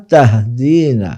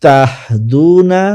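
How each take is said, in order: First: তাহদিনা very slow, with a long EE after the D; long ya vowel. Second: তাহদুনা very slow, with a loud long OO after the D; long waw vowel. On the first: Teacher showing students the feminine form, drawn-out DII in তাহদিনা. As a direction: stretch the DI of তাহদিনা. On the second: Teacher showing students the masculine form, drawn-out DUU in তাহদুনা. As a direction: stretch the DU of তাহদুনা. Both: Shown as a demonstration. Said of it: "মুজাক্কার মুয়ান্নাসের উচ্চারণটা ভালোভাবে লক্ষ্য করুন".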